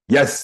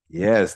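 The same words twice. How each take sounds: First: The word is said firmly and decisively. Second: The word is said softly and without force. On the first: "that's de- determined" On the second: "that's it"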